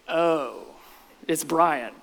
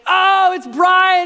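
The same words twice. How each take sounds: First: It sounds disappointed and unwelcoming. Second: It sounds delighted and welcoming.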